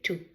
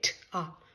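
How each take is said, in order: First: The word ends in an 'oo' vowel. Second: The word ends in an 'ah' vowel. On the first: The speaker calls it right. "we say to" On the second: The speaker calls it wrong. "we don't say t, ah"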